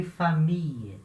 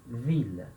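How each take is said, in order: First: "família" as French fa-MEE-y; L turned to glide. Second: "vila" as French veel, L clearly heard; pronounced L. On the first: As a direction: end "família" on long ee and y, no L. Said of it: "você bem estica essa letra I". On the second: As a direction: finish "vila" on a firm L. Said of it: "o som do L mais forte". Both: Shown as a demonstration.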